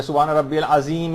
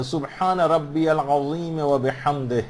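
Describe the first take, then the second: First: سبحان ربی العظیم with a plain z for ظ; wrong letter sound. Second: سبحان ربی العظیم و بحمدہ slowly, every Arabic letter distinct; slow, careful recitation of سبحان ربی العظیم و بحمدہ; correct pronunciation. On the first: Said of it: "زے آ رہی ہے یا زال آ رہی ہے". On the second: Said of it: "اس میں ہا جو ہے وہ صحیح نکلنا چاہیے". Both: Shown as a demonstration.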